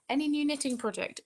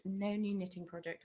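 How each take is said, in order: First: High, loud question read-out. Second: Said in the usual way. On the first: Real, not acted. Reading a viewer's knitting question to the stream, raised read-out voice.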